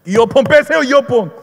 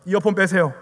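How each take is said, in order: First: Loud, high repeated demand; imitated shouted order. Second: Said in the usual way. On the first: Evangelist ordering a subway passenger, mock shouting. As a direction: bark it over their earphones, as retold.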